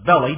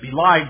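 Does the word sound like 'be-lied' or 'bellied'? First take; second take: bellied; be-lied. First: It is said as BELL-eed, like 'belly'. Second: It is said as be-LIED, rhyming with 'denied'. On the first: The speaker calls it wrong. "most of the people where I live pronounce that as bellied" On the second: The speaker calls it right. "The King James says they have belied the Lord"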